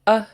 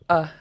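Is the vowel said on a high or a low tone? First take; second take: high; low. First: The short vowel is said on a high tone. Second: The short vowel is said on a low tone. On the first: "And then high tone" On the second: "short, low"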